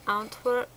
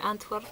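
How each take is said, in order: First: Antwerp said as "Ahntwerp" with a broad ah; a posh foreign-style Antwerp with an ah vowel; fancy accented Antwerp. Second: Said in the usual way. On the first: Shown as a demonstration. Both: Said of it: "I don't know why I put an accent on there".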